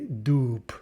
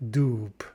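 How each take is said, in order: First: The word ends with a voiceless P sound. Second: The word ends with a voiceless P sound.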